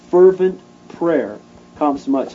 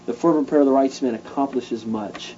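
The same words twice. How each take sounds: First: Fervent punched hard at the start; stress on Fervent. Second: Said in the usual way. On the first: Shown as a demonstration. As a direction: lean into the word Fervent.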